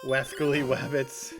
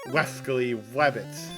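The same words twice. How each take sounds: First: The opening sounds are pure W sounds. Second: The opening sounds blend R into W. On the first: The speaker calls it wrong. "not pure W sounds" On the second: The speaker calls it right. "it's supposed to have R sound, like R W sounds"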